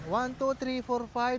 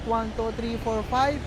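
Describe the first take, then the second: First: The voice is recorded much quieter than normal. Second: The voice is recorded somewhat quieter than normal. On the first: "negative twelve. Anong napansin nyo, di ba humina yung boses ko?" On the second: "ito yung negative six. Anong napansin nyo, di ba? Humina siya"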